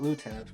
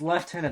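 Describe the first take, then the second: First: It is said with an American pronunciation. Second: It is said with a British pronunciation. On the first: "not lieutenant to them" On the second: "because that's what the British say. It's lieutenant"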